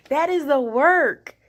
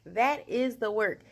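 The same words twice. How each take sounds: First: Loud and slow, leaning hard on "That is the work."; emphatic. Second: Said in the usual way. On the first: Real, not acted. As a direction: declare "That is the work." with full weight. Proud repeated point.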